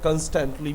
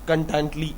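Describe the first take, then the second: First: It is said with an 's' sound: constantly. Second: It is said without the 's' sound: contently. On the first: "कंस्टेंटली भी पढ़ते हैं" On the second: "अपनी खुद की बनाई हुई English, कंटेंट कंटेंटली इस तरह पढ़ता था"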